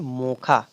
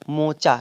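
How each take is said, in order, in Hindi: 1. बीच का व्यंजन 'kh' ध्वनि है। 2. बीच का व्यंजन 'ch' ध्वनि है। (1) "उच्चारण इसका जो होगा उसको हम बोलेंगे मोखा" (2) "इसका इंग्लिश का नाम है मोचा"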